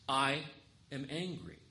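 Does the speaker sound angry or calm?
calm. It is said calmly, without real anger. The speaker calls it wrong. "No, I'm not saying that right"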